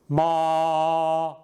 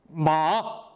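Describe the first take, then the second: First: The pitch stays high and level throughout. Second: The pitch drops down and then rises. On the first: "처음부터 끝까지 나란하게 소리가 좀 높게 같습니다" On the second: "떨어뜨렸다가 높여지게 하는 모습"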